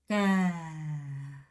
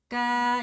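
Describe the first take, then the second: First: The pitch falls throughout. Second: The pitch stays level throughout. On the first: A fruit from a vine plant, like eggplant. "하고 내려가는 겁니다" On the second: A dipper or scoop. "이 정도 음에서 쭉 가는 거예요"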